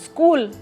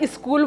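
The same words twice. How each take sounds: First: The word starts directly with the s sound. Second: An extra 'i' vowel comes before the s. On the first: The speaker calls it right. "आपको वो आधा स बोलना तो ऐसे ही बोलना है" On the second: The speaker calls it wrong. "ई क्यों लगा दिया भई आपने? किसने बोला स्कूल बोलो?"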